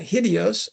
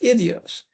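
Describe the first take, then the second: First: The word begins with a breathy h sound. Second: The word begins directly with the vowel. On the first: "Depending on how you aspirate that" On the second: "or just idios"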